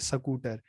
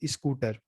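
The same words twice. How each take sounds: First: It is said in a Haryanvi regional accent. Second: It is said in an Uttar Pradesh-Bihar accent. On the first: "Haryana में आप बोलेंगे स्कूटर, तो बिल्कुल शैली बदल जाएगी" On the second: "Uttar Pradesh Bihar में जाएंगे तो"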